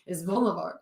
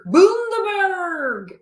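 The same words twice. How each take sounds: First: Bundaberg said quickly and softer, like a local; brisk local correction of Bundaberg; Australians correcting Bundaberg. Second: Bundaberg stretched very slowly, higher and louder; careful drawn-out Bundaberg. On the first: Retold or imitated. Australians correcting her, Bundaberg said quickly. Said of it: "They're like". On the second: Shown as a demonstration. Repeating the ginger beer name after the correction, slowly. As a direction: savour Bundaberg, each syllable drawn out.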